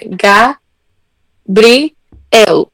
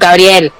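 First: The name is split into separate syllables. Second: The name is said smoothly as one word. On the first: It mimics someone spelling the name out slowly. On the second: It is the ordinary way of saying the name.

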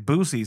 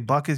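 First: The first syllable has a long 'oo' vowel. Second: The first syllable has a short 'uh' vowel. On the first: The speaker calls it right. "you're supposed to say boosies" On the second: The speaker calls it wrong. "you're not supposed to say buckies"

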